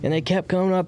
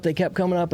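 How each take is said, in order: First: "coming" pushed high, "kept" lighter; stress on coming. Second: "kept" stressed, "coming" lighter. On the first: Overwhelmed man telling how feelings surfaced, pitched high. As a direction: lean on "coming". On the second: Overwhelmed man repeating that feelings surfaced, high pitch. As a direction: lean on "kept". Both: Real, not acted. Feelings rising at boot camp.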